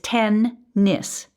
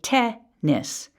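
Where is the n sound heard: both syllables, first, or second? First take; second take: both; second. First: The n sound is heard in both syllables. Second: The n sound begins only the second syllable. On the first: "we pronounce the N in both syllables for spelling purposes" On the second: "or they may say te-nis"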